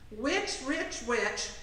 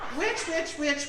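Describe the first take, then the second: First: It is said slowly, a little at a time. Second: It is said quickly in one run. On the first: "I'm going to say it slow and a little at a time" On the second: "I'm going to say it fast with two mistakes"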